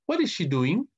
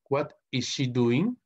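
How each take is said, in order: First: Said in the usual way. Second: Slowly, each word set apart; slow model question. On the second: Shown as a demonstration. Teacher repeating an English example for students, slow and measured.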